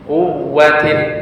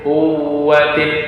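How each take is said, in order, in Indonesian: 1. Bunyi w yang ganda ditekan dengan tegas. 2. Bunyi w yang ganda ditahan lembut dan sengau. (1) "bacaannya sedikit menekan pada huruf waw tersebut" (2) "Tidak dibaca dzi quwwatin, quwwatin, ditahan sedikit. Nah, itu bacaan gunnah"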